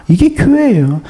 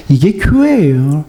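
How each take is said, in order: First: "이게" punched, then 교회예요 falls; stress on 이게. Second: "이게 교회예요" said low and slow, rising on 교회예요; low slow rising take. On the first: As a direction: lean hard on 이게, let the rest drop. ("이게"에 힘을 주고 끝을 내리며) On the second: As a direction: draw out 이게 교회예요 low, lifting at the end. (낮고 느리게, "교회예요"에서 올리며) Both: Shown as a demonstration.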